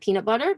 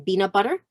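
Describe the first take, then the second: First: The first word starts with a P sound. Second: The first word starts with a B sound. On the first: This is the usual English pronunciation. The speaker calls it right. "instead of" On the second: This imitates a speaker whose language has no P. The speaker calls it wrong. "My mom used to always say"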